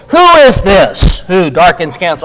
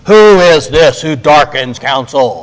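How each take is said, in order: First: It is said in a normal speaking voice. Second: It is said in a put-on deep voice.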